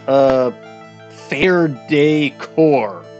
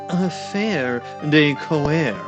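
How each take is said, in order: First: It is said with English sounds, like 'day core'. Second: It is said with French-like sounds, like 'de coeur'. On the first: "I'm deliberately mispronouncing it" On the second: "I'm guessing it's"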